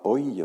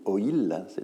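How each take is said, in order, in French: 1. Le mot se prononce en une syllabe. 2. Le mot se prononce en deux syllabes. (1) "on ne dit pas oil" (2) "on dit oil. Il y a deux syllabes"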